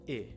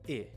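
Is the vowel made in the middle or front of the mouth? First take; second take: front; front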